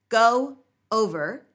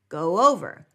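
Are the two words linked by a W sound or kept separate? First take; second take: separate; linked. First: The words are said separately without a glide. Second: A W glide links the two words.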